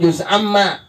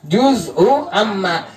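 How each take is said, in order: First: Juz runs straight into amma without a vowel. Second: An extra u vowel follows juz before amma. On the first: "Kita bilang juz amma" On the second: "Asalnya juz'u amma"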